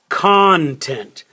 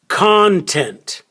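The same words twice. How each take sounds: First: The stress is on the first syllable. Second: The stress is on the first syllable.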